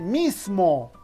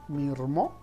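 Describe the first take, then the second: First: The sound before 'mo' is an S sound. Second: The sound before 'mo' is an R sound. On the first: "en lugar de" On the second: "O decir mirmo"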